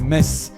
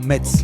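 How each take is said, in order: First: Metz is pronounced the local way. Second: Metz is pronounced in a German-style way. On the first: This is how people from the region say it. The speaker calls it right. "chez nous on dit Metz" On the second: This is how outsiders say it. The speaker calls it wrong. "et pas Metz"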